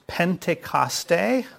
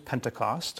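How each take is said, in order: First: The word is pronounced the Greek way. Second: The word is pronounced the English way. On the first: "which is how you pronounce it in the Greek" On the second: "but it is Pentecost"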